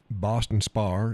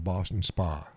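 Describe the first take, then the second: First: "Boston Spar" with a sounded R at the end; added final R. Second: Said in the usual way. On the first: Shown as a demonstration. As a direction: slowly say spa as "Spar". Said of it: "instead of Boston Spa". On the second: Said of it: "instead of".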